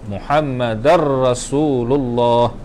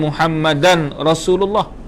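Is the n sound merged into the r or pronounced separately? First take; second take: merged; separate. First: The n merges into the r without nasality. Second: A distinct n is heard before the r. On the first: The speaker calls it right. "ke dalam ra tanpa dengung" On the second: The speaker calls it wrong. "Dia bukan Muhammadan Rasulullah"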